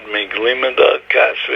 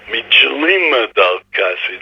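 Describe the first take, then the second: First: The word is said in modern Israeli Hebrew pronunciation. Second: The word is said in an old traditional pronunciation. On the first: "when he read Miglima dal Kasva" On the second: "he said Mijlima dal Kasva"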